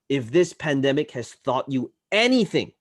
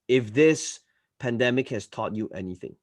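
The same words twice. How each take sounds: First: It is said with emphasis on selected words. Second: It is said flatly, without emphasized words. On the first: The speaker calls it right. "good use of tonality" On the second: The speaker calls it wrong. "Rather than saying"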